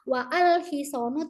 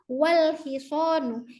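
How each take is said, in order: First: 'Wa' and 'al' are said as separate syllables. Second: 'Wa' and 'al' merge into one syllable, 'wal'. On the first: The speaker calls it wrong. "Kita tidak mengatakan wa al hisonu" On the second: The speaker calls it right. "tapi wal hisonu. Kita langsung cut ngejam"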